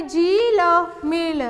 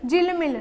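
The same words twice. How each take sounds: First: जी ल मिल drawn out slowly, each part separate; syllable by syllable. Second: Said in the usual way. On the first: Shown as a demonstration. Teacher building a word from its letters, sounded out. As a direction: stretch जी, pause, then ल, then मिल. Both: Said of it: "तो ये क्या हो गया".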